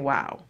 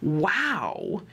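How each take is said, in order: First: It is said in a flat monotone. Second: It is said with lively, varied intonation.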